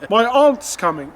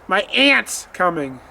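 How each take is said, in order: First: Aunt is said with an open ah vowel. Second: Aunt is said like the insect ant. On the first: It sounds like the relative. The speaker calls it right. "th- that's the person" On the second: It sounds like the insect. The speaker calls it wrong. "you gonna step on her?"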